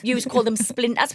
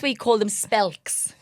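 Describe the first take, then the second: First: Said in the usual way. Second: Spelks with a short Geordie e, drawn out; spelks, said slowly in Geordie. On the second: Shown as a demonstration. To a friend, showing the Geordie word slowly.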